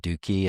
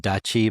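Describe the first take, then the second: First: The middle consonant is a 'k' sound. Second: The middle consonant is a 'ch' sound.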